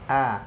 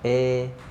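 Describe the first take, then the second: First: The vowel sounds neutral, with the mouth moderately open. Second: The vowel sounds narrow, with the mouth barely opened. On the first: The speaker calls it right. "jadi A-nya mutawasid, pertengahan ya. Netral biasa saja" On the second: The speaker calls it wrong. "atau miring itu kurang de, membuka mulutnya"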